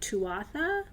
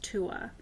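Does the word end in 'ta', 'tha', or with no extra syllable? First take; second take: tha; no extra. First: The word ends with a 'tha' syllable. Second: The word ends after 'Tua' with no extra syllable. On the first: The speaker calls it wrong. "it looks like Tuatha, and people pronounce it that way" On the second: The speaker calls it right. "but it's pronounced Tua"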